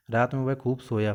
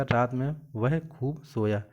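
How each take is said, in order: First: Said in the usual way. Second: Slow, with weight on वह, रात में वह खूब सोया spelled out word by word; slow corrected reading. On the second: Shown as a demonstration. Teacher slowly reads the corrected sentence to students. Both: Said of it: "तो यहाँ पे क्या हो जाएगा".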